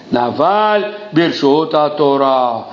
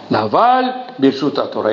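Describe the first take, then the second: First: Drawn-out, slow, weighty recitation; very slow emphasis. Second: Said in the usual way. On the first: Acted. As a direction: spell the saying out slowly. Quote repeated for emphasis.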